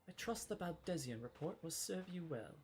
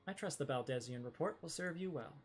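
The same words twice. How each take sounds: First: It is said in the character's put-on voice. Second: It is said in a more natural voice.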